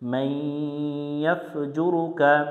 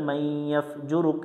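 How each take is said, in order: First: The final vowel is kept, ending on a vowel. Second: The final vowel is dropped, ending on a consonant. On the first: The reciter continues without stopping. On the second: The reciter stops at this word.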